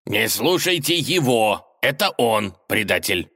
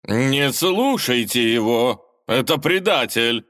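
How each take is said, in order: First: Insistent retort. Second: Slow, loud barked order; barking. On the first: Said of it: "не уступал ему государь". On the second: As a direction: bark it at the crowd. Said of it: "рявкнул лже-Иван". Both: A narrator's reading.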